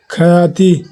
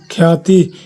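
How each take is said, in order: First: ख्याति broken apart as kha-yaa-ti; split consonants. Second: ख्याति with kh and y fused as khyaa-ti; joined consonants. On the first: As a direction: say ख्याति with a vowel between ख and य. (ख्याति को तोड़कर "ख-याति" बोलें) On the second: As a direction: say ख्याति with no vowel between ख and य. (ख्याति में ख और य मिलाकर बोलें) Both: Shown as a demonstration. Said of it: "शब्द का संयुक्त रूप".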